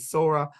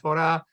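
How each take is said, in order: First: It is said in an Ashkenazi style. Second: It is said in a Sephardic style. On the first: "I can pronounce both ways"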